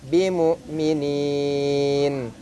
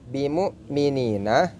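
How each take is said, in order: First: The word ends on the 'n' consonant. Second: The word ends with a final 'a' vowel. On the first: The reading stops at this word. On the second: The reading continues without a stop.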